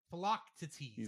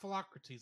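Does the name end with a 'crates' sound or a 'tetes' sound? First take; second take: tetes; crates. First: The name ends with a 'tetes' sound. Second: The name ends with a 'crates' sound. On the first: The speaker calls it right. "it's Philoctetes" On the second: The speaker calls it wrong. "it's not Philocrates"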